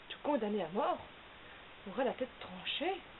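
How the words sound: It is said as a question.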